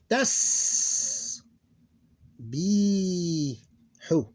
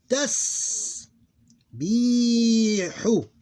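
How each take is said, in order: First: Drawn-out hissing s, then a long pause; time to stand out. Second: Higher, measured syllables with short pauses; almost normal reading speed. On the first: Teacher showing sukoon needs time, slow and drawn out. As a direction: stretch each sound and separate the syllables widely. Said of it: "give it enough time to stand out". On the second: Teacher demonstrating the word for learners, measured syllable by syllable. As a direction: read it syllable by syllable, lingering on the s and long vowel. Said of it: "almost with normal speed". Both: Shown as a demonstration.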